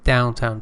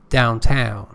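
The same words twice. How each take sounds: First: The stress is on the first syllable. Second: The stress is on the second syllable. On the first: It describes a noun. "Here it is an adjective, so first syllable" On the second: It says where an action goes. "because it is actually an adverb"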